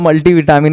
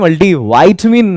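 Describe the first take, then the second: First: The first vowel of vitamin sounds like 'ee'. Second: The first vowel of vitamin sounds like 'eye'. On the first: The speaker calls it wrong. "But वो multi विटामिन नहीं" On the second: The speaker calls it right. "मल्टी वाइटमिन है"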